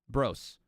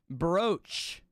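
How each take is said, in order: First: The name ends with an s sound. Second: The name ends with a ch sound. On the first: The speaker calls it right. "Kind of like gross, bros. That's how you say it" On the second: The speaker calls it wrong. "I don't know where the fuck they get a C H at"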